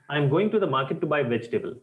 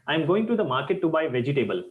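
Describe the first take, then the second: First: Vegetable is pronounced in a native-like way. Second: Vegetable is pronounced in a non-native way. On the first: The speaker calls it right. "The second one sounds more professional, more native like" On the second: The speaker calls it wrong. "my sentence number one"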